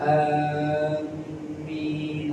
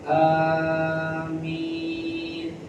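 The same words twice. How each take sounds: First: The m sound is doubled. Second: The first vowel a is long. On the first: It means: we are heading toward you. The speaker calls it wrong. "jangan ditasydid" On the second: It means: O God, answer our prayer. The speaker calls it right. "yang paling fasih amin, ahnya panjang, minnya panjang"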